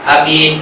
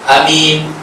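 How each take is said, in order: First: The first vowel is cut short. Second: The same.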